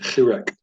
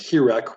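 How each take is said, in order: First: It starts with a harsh, throaty h sound. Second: It starts with a soft, plain h sound. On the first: The speaker calls it right. "it actually does have a Chet. And so there is a hard sound" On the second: The speaker calls it wrong. "with just an H"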